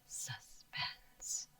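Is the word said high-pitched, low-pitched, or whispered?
whispered. The word is whispered without full voice. "Can you whisper it?"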